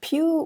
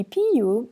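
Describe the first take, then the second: First: "Più" in one syllable, pyoo; accented più. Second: "più" as two syllables, PEE-oo; penultimate stress. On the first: Teacher contrasting stress, "Più" said as one syllable pyoo. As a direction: glide onto the u of "Più". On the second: Teacher explaining usual Italian stress, "più" split as PEE-oo. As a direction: lean on the i of "più". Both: Shown as a demonstration. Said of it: "the penultimate syllable is stressed".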